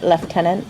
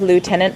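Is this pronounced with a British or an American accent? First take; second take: British; American. First: The first syllable sounds like left. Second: The first syllable sounds like loo.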